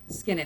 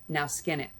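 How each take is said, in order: First: The voice sounds gentle. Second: The voice sounds harsh.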